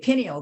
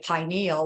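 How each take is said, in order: First: The first syllable does not sound like pine. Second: The first syllable sounds like the word pine. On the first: "some people say" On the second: "like pine cone"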